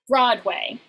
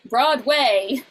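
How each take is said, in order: First: The stress is on the first syllable. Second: The stress is on the second syllable. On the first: The speaker calls it right. "You put this, the stress on the first syllable" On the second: The speaker calls it wrong. "the characters seem to pronounce it Broadway, but it sounds a little off"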